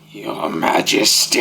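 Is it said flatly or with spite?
with spite. It is said with angry, menacing spite.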